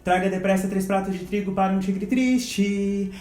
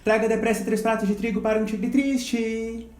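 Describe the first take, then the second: Both takes have the same delivery.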